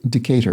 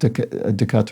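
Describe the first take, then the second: First: It is said with a plain English pronunciation. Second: It is said with a French-style pronunciation. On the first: The speaker calls it right. "the name is pronounced Decatur in Georgia" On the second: The speaker calls it wrong. "my fancy French, French, French pronunciation of the city"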